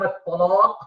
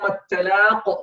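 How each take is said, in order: First: The t sound is heavy and emphatic. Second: The t sound is light and plain. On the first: It means the day of divorce. The speaker calls it wrong. "you make the ta heavy, it becomes ta" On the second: It means the day of meeting. The speaker calls it right. "which is the day of meeting"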